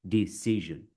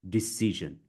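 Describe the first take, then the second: The two takes are said the same way.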